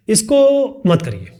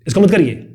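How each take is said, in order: First: Slower, gentle इसको मत करिए with a falling end; slow, drawn out. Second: मत punched, quick and firm; firm, stress on मत. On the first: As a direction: draw the words out calmly. (धीरे, खींचकर) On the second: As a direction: forbid it firmly. (मत पर ज़ोर देकर) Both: Shown as a demonstration. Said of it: "दो अलग तरीके को हो गया ना बोलने का तरीका".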